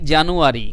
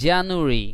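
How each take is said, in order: First: The vowel after 'Janu' is said fully. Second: The vowel after 'Janu' is nearly silent. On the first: The speaker calls it wrong. "আমরা তো বলি জানুয়ারি" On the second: The speaker calls it right. "মানে অনেকটা আ সাউন্ডটা silent হয়ে যায়"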